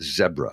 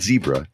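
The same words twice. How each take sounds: First: The word is said the African-countries way. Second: The word is said the non-African way. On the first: The speaker calls it right. "the countries that have them where they pronounce it zebra" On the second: The speaker calls it wrong. "It's not zebra"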